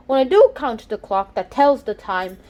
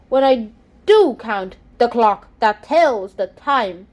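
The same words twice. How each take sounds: First: Said in the usual way. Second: Slow, da-DUM beat, stressing do, count, clock, tells, time; iambic stress. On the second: Shown as a demonstration. Student demonstrating iambic rhythm, slow and stressed. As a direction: tap out each second syllable like a heartbeat. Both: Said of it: "you have to read it like this".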